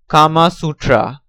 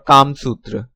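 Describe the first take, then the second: First: It is said the foreign way. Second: It is said the Hindi way. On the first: "Foreigner's pronunciation" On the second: "Hindi pronunciation"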